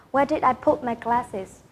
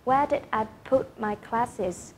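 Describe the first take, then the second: First: "Where did I put my glasses?" dropping on "glasses"; wh-question, pitch down on "glasses"; falling tune. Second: Slower, softer "Where did I put my glasses?" falling on "glasses"; slow model wh-question, "glasses" falling; slow falling tune. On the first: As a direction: let "glasses" fall at the end. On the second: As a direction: say it again slowly, "glasses" sinking. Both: Shown as a demonstration. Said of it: "các em sẽ xuống giọng ở cuối câu".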